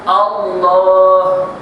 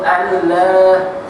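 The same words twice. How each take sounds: First: The l is thick and heavy, with a deep vowel. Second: The l is thin and light, with a bright vowel. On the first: The speaker calls it right. "ditebalkan bacaan lafzul jalalah" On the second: The speaker calls it wrong. "Yang sebut Allah, nah, tak boleh"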